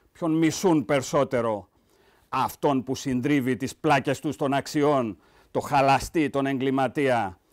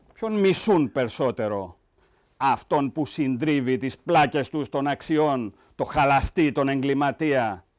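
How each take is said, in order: Both takes have the same delivery.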